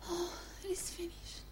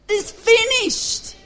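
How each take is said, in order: First: It is said weakly, like a frail dying man. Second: It is shouted triumphantly, like a victory cry.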